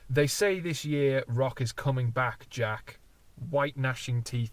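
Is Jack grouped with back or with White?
with back. The pause comes after Jack, before White. Jack is someone being addressed. "because I read this in a certain way"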